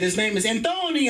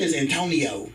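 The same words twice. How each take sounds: First: "Antonio" with a put-on accent; foreign accent. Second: Said in the usual way. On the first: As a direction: say Antonio higher, in an accented flourish. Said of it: "With an accent and shit". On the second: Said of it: "You're not saying his name right".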